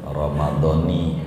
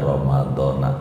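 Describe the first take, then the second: First: The word ends with an 'i' vowel. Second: The word ends with an 'a' vowel. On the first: The speaker calls it right. "Ramadhani gitu bacanya, baru rapih" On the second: The speaker calls it wrong. "aib bagi orang ngaji tuh bacanya Ramadona tuh aib"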